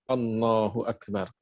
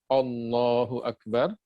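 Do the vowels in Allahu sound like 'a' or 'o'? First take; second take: a; o. First: The vowels are open, sounding like 'a'. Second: The vowels are rounded, sounding like 'o'. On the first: The speaker calls it right. "dengan A" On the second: The speaker calls it wrong.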